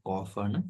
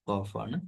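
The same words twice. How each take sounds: Both takes have the same delivery.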